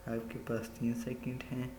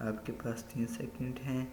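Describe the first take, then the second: Both takes have the same delivery.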